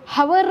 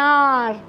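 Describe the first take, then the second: First: The word begins with an h sound. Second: The word begins with a vowel sound. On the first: The speaker calls it wrong. "ನಾನು ಹವರ್ ಅನ್ಲಿಲ್ಲ" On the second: The speaker calls it right. "Wait for me for ಎನ್ ಆರ್ ಅಂತ ಹೇಳ್ತೀನಲ್ಲ"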